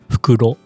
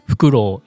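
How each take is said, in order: First: The final vowel is kept short. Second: The final vowel is drawn out long. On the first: It means bag. "Fukuro is bag" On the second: It means owl. "if you put u at the end, fukuro. Fukuro is owl"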